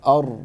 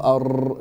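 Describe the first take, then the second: First: The r is rolled only lightly. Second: The r is rolled too strongly. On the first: The speaker calls it right. "that's it" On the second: The speaker calls it wrong. "No ar, don't exaggerate"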